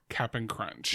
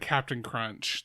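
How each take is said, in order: First: The first word is said without a T sound. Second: The first word is said with a T sound. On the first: The speaker calls it right. "There's no T in this word" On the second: The speaker calls it wrong. "you said Captain Crunch. There's no T in this word"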